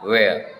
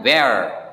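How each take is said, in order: First: It is said with a flatter British accent. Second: It is said with an American accent. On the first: "ketika di British English ini dibaca where" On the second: "American English selalu mengatakan where"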